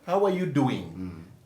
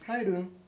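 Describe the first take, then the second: First: Every word is said fully and separately. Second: Words are dropped and run together quickly. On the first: The speaker calls it wrong. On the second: The speaker calls it right. "they slang their language. They cut short words"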